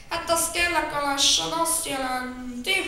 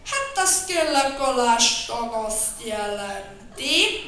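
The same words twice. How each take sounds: First: Said in the usual way. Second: Slow, drawn-out mumble; muttering slowly. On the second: Acted. Bear explains the arrest, slow muttering. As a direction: grumble it out slowly. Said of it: "mormogta Medve Medár".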